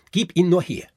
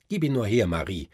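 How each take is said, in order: First: Put-on high, loud boyish shout for the toy; shouted demand. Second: A hint of a bossy boy asking for the toy; lightly voiced demand, not yet shouted. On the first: Fritz shouts at Marie to hand over the Nutcracker. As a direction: yell it at your sister, higher and louder. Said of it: "rief Fritz". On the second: Fritz demands the Nutcracker from his sister, mildly bossy. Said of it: "sprach Fritz". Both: A narrator's reading.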